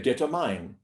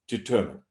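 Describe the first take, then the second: First: The last syllable sounds like 'mine'. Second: The last syllable sounds like 'min'. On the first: The speaker calls it wrong. "M I N E on the end of that word is pronounced mine" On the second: The speaker calls it right. "Determine is pronounced determine"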